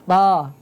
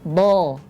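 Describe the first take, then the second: First: A thin, light sound without raised tongue back. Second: A thick, heavy sound with raised tongue back. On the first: The speaker calls it wrong. "tipis ya" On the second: The speaker calls it right. "Suaranya tebal"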